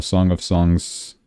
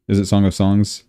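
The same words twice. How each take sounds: First: Said in the usual way. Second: Song of Songs asked with a rising, doubtful tune; a questioning Song of Songs; unsure question. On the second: Real, not acted. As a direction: check the title as if unsure.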